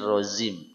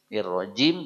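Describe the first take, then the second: First: The consonant before the last vowel sounds like z. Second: The consonant before the last vowel sounds like j. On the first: The speaker calls it wrong. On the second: The speaker calls it right.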